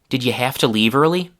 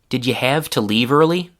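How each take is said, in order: First: The word have ends in an unvoiced f. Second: The word have keeps a voiced v sound. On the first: "the voiced v sound became an unvoiced v f sound" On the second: "The first with two changes from the full form"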